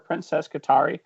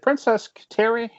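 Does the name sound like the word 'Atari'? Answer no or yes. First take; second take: yes; no. First: The name sounds like the word Atari. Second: The name does not sound like Atari. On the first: "I wanted it to sound like Atari" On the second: "Am I saying that right?"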